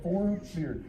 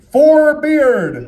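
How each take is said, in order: First: Said in the usual way. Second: Higher, louder call to the crowd; calling out loudly. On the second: Real, not acted. Calling names for applause vote.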